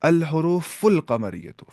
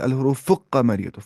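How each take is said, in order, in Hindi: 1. l की आवाज़ साफ़ बोली जाती है। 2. l की आवाज़ की जगह दोहरा k बोला जाता है। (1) "फुल लाम पढ़ते हैं यहाँ पे" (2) "हम नहीं बोलते"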